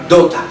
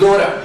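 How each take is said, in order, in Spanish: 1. La t suena clara y nítida, como una t bien marcada. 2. La t suena suave, como una d. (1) "británico, vas a escuchar Dota" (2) "Si es inglés americano"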